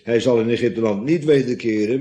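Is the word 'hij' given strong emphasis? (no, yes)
no. The word 'hij' carries no special emphasis. The speaker calls it wrong. "Zodat we niet moeten lezen"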